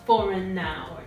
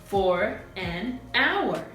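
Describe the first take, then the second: First: The words run together without breaks. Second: Each word is said separately with breaks. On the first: "So this is how it would sound" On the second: "instead of"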